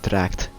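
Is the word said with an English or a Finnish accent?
English. The word is said with an English accent.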